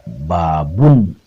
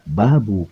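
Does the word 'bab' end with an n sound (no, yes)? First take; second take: yes; no. First: The word ends with an added n sound. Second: The word ends on a vowel without n. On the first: The phrase is read as subject and predicate. "Bisa dibaca babun kaifa kana bad'ul wahyi, lamun baca babun berarti kaifanya jadi bada" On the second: The phrase is read as a possessive construct. "Bisa dibaca juga babu kaifa kana bad'ul wahyi, berarti jadi idofah"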